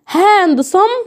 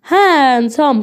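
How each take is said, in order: First: The d sound is pronounced. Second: The d sound is silent. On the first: The speaker calls it wrong. "لا" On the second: The speaker calls it right. "قول هان صم، هان صم كده"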